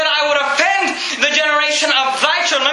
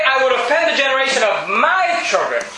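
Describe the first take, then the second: First: "thy" stressed as the correcting word, higher overall; emphatic "thy" in a raised preaching voice. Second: "my" punched as the contrast word; "my" stands out, then "children" falls away; stress on MY. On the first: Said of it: "And he said". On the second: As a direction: lean hard on "my" as the word he didn't say. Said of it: "Notice he didn't say". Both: Shown as a demonstration.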